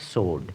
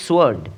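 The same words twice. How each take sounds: First: সোর্ড with a silent W, like "sord"; correct pronunciation. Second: সোয়ার্ড with the W sounded; wrong সোয়ার্ড, W heard; wrong pronunciation. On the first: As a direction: say the right সোর্ড with no W. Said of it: "ডাব্লিউ নীরব বা silent হবে". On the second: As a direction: mistaken সোয়ার্ড, "swoard". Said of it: "যেটি ভুল উচ্চারণ". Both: Shown as a demonstration.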